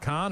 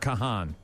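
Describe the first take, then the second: First: The name is said as one short syllable. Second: The name is said with two syllables. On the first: "I thought it was pronounced Khan" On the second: "that's how it's spelled"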